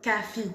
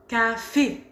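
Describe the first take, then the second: First: Café said as cafi, i at the end; wrong vowel demo. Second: Café ending on a closed é, not i; correct café. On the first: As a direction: show the mistake: café ending in i. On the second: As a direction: model the right café, final é tight. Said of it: "Est-ce que vous entendez la différence?". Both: Shown as a demonstration.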